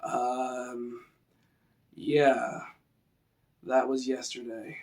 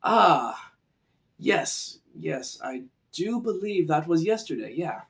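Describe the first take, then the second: First: Slow, vague, quiet; slow and dim-witted. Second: A light scholarly musing voice; contemplative sage. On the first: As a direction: let it trail like a slow thinker. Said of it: "So let's use that". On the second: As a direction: muse it like a thoughtful old scholar. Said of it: "Versus something like this". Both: Shown as a demonstration.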